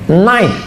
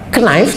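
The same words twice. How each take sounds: First: The initial k is silent. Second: The initial k is pronounced. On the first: This is how it is actually said. "ada beberapa huruf yang hilang sama sekali nggak dibaca" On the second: This is how it is written.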